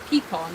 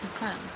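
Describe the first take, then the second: First: It is said the northern way. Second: It is said the southern way.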